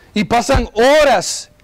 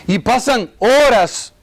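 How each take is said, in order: Both takes have the same delivery.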